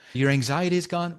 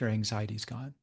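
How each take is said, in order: First: It is said with amazed surprise. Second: It is said in a matter-of-fact way. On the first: The result seems surprising and remarkable. "I was amazed" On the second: The result is expected and ordinary. "it's no longer surprising"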